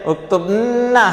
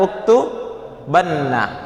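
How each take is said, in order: First: The b has no vowel after it. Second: The b is followed by an a vowel. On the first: The speaker calls it wrong. "Nggak bisa ya?" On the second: The speaker calls it right. "maka ba dirubah. Dirubah menjadi apa? Fathah"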